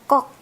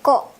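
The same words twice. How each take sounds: First: The final k sound is clearly pronounced. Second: The final k sound is dropped. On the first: It is the word for a shuttlecock. "instead of kok. Because if we say kok, it's for shuttlecock" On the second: It is the word meaning why. "we don't say the K, we just say kok"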